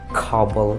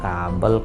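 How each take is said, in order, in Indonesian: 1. K-nya kuat, dengan hembusan napas. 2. K-nya lembut, tanpa hembusan napas. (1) "pasti mereka bilangnya itu kayak ... Ketupannya itu memang lebih gede" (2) "kalau di bahasa Indonesia ya biasa aja kita nyebutnya"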